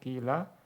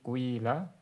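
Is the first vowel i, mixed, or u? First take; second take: i; mixed. First: The first vowel is a pure i sound. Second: The first vowel blends i with u rounding. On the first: "Engkau boleh mengkasrohkan fa-nya" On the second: "ismam ya, kasroh kepada dhammah"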